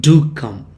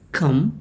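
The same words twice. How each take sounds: First: "Do" hit firmly, "come" dropping after it; emphatic "Do" with a falling finish; stress on DO. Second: Said in the usual way. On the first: Shown as a demonstration. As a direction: lean on "Do" as a warm invitation would. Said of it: "you say". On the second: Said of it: "instead of saying".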